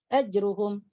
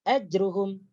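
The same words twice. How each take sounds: The two takes are said the same way.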